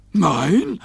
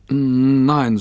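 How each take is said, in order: First: NEIN higher with rising tune; questioning. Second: Said in the usual way. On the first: A narrator's reading. Rover querying Robbie's answer, NEIN rising high. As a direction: echo NEIN as a surprised question. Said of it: "fragte Rover".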